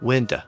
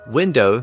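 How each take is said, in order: First: The final syllable is reduced to 'uh'. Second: The final syllable is said fully.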